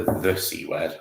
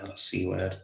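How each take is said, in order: First: THE singled out before "C word"; stress on THE. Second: Said in the usual way. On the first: Shown as a demonstration. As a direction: lean on "the", as in the one and only. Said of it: "it wasn't the".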